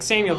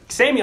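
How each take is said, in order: First: The name is called in a casual, everyday way. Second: The name is called with pressing urgency. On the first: The speaker just wants the person to come over. "the regular Samuel's like" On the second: The speaker badly needs the person right now. "That's an urgency"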